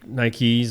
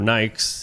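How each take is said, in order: First: The brand name is said the ordinary way. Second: The brand name is said the cool-kid way. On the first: This is how the speaker normally says it. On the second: This is how the cool kids say it.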